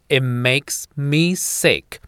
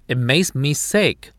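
First: It is read at a slower pace. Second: It is read at a medium pace.

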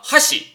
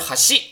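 First: The pitch is high on the first syllable. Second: The pitch is high on the second syllable. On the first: It means chopsticks. "哈西是筷子的意思" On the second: It means bridge. "哈西就是桥"

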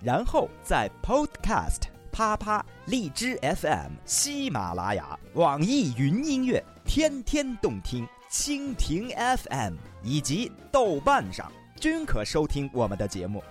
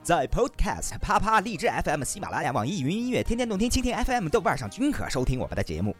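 First: The list is read slowly. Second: The list is read quickly.

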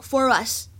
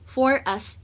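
First: The two words are linked together smoothly. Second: The two words are said separately, unlinked. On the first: "如果连读的话呢，它会读成for us" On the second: "你也可以不连读for us 也是可以的"

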